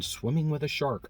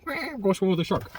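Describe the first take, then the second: First: Slow, leaning on swimming; stress on swimming. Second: High, excited, stressing I'm. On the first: Shown as a demonstration. Salesman stressing why the trip matters, slow and weighted. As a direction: draw out swimming with a shark. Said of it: "This was so important". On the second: Retold or imitated. Customer gushing about the shark trip, high and excited. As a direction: squeal it like a kid about the trip. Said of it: "I am going swimming".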